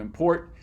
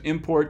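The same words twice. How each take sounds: First: The stress is on the second syllable. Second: The stress is on the first syllable. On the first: It is used as a verb. "to the end" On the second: It is used as a noun. "shifting the stress from the beginning"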